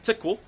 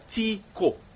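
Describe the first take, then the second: First: The first vowel is short, like in 'tick'. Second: The first vowel is a long 'ee' sound. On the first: The speaker calls it wrong. "don't get lazy, don't just say tickle" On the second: The speaker calls it right. "really put the emphasis on that I sound, it's pronounced as an E"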